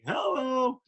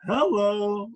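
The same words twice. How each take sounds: First: Much higher, excited hello; catchphrase hello. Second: Drawn-out, higher wolf-whistle hello; admiring hello. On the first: Shown as a demonstration. Broadcaster reacting to an impressive play, excited hello. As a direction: greet a great play with delight. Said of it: "I'm like". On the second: Retold or imitated. Guy reacting to a woman walking by, admiring hello. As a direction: say hello like a pretty woman just walked by. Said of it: "you'd go".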